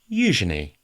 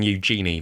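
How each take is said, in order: First: The middle syllable is said as 'juh'. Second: The middle syllable is not said as 'juh'. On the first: The speaker calls it right. "It's je. So pronounce it as if you're spelling it J U H" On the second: The speaker calls it wrong. "That's the one that I think I hate the most because it just sounds horrible"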